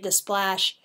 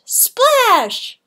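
First: Said in the usual way. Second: Loud splash word. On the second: A narrator's reading. Narrator to children, acting out a loud splash. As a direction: belt out the splash, high and loud.

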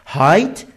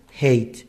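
First: هایت with an "ai" vowel, like height; mispronunciation demo. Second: هیت with an "ey" vowel, like hate, softly dropped; correct pronunciation demo. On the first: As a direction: say هایت rhyming with "kite". («هایت» با صدای کشیدهٔ «آی») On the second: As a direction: say هیت rhyming with "late". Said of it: "در حالی که دومی هیته". («هیت» با صدای «اِی») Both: Shown as a demonstration.

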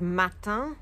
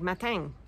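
First: Matin said the standard French way. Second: Matin said with a G-like nasal ending; southern matin. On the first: Vlogger giving standard matin before the southern one. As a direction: say matin plainly. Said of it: "matin is morning". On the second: Vlogger imitating the Perpignan matin. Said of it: "it sounds like there's a G". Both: Shown as a demonstration.

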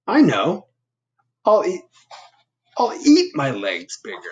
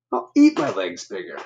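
First: High, eager idea voice; bursting with a new plan; excited Bob. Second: Said in the usual way. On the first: Acted. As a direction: Bob brightly announcing his plan.

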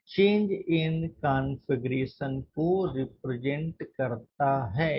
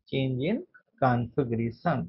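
First: Said in the usual way. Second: "change in" then a pause, then "configuration" drawn out very slowly and lower; slow emphatic repeat. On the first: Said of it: "teacher defines strain for students". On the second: Shown as a demonstration. Teacher repeating the key term so students note it, slow and drawn out. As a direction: break it in two, stretching "configuration" syllable by syllable. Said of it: "teacher repeats the term for emphasis".

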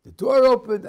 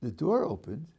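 First: Much higher and louder, breathless; excited retelling. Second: Softer and quieter, in wonder; calm, awed retelling. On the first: Rescued driver recalling the crash, loud and excited. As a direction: blurt it out, still shaken by the rescue. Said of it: "One is". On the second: The rescued man seeing God's hand, quiet and awed. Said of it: "There's another way to relate to it". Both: Acted.

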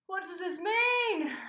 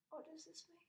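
First: Loud, high, slow panicked question; panicking fan after the news. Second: Hushed. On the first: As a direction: wail the question. Panic stan mode. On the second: Panic stan mode, repeat. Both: Real, not acted.

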